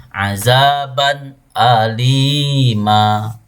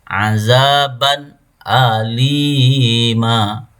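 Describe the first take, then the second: No difference in how they are said.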